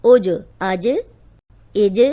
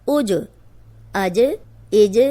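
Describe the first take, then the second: The two takes are said the same way.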